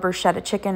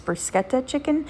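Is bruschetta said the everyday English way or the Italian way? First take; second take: English; Italian. First: Bruschetta is said the everyday English way. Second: Bruschetta is said the original Italian way. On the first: The speaker calls it wrong. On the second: The speaker calls it right.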